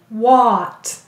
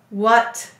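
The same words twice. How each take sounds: First: The vowel is a full, clear 'ah' sound. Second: The vowel is a weak, lazy 'uh' sound. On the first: This is said in an odd way to help remember the spelling. "So we are going to say to spell what. ... That sounds a little funny" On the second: This is how the word is normally said. "When you say what, do you maybe hear a lazy vowel?"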